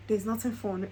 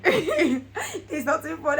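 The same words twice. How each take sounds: First: Said in the usual way. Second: Slow, higher and louder through a laugh; laughing self-pitying moan; laughing wail. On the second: Retold or imitated. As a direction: whine it out half laughing. Retold moody complaint, laughing.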